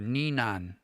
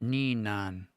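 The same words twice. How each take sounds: The two takes are said the same way.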